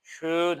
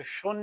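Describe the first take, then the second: First: "شون" as German schön, with a drawn-out ö; slow, thick rounded umlaut in "شون". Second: "شون" with a plain back vowel, no umlaut; "شون" mispronounced with an unrounded-front sound missing; wrong umlaut-less schön. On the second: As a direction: say "شون" without the German umlaut. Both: Shown as a demonstration.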